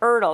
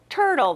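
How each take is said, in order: First: The word starts without the T sound. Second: The word starts with a clear T sound. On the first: The speaker calls it wrong. "They're like" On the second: The speaker calls it right.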